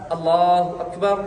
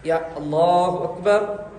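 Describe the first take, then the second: First: Allahu Akbar said slowly with a rise on Akbar; teacher showing the women's takbir. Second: Allahu Akbar stretched long, Akbar rising; teacher repeating the takbir slowly. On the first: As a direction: draw out Akbar, lifting at the end. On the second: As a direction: linger on each syllable of Akbar. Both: Shown as a demonstration. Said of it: "तकबीर औरतें इधर बांधेंगी ऐसा".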